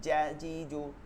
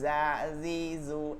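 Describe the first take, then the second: First: The J sound is crisp and clearly articulated. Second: The J sound is soft and loosely articulated. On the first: The speaker calls it right. "একদম স্পষ্ট" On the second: The speaker calls it wrong. "ওই যা জি জু এরকম কিন্তু বলতেছি না"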